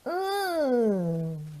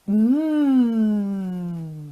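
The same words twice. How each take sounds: First: It sounds disgusted, as if tasting something nasty. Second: It sounds pleased, as if tasting something delicious.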